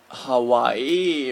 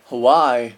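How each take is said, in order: First: "Hawaii" drawn out as ha-wa-EE; weird pronunciation. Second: "Hawaii" as huh-WHY, second syllable loud; dictionary pronunciation. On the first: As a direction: stretch "Hawaii" slowly, ending on a separate long ee. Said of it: "no one would say that". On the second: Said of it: "that's my dictionary said". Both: Shown as a demonstration.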